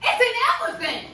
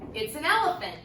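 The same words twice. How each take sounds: First: It is said with excited exclamation. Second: It is said as a calm statement.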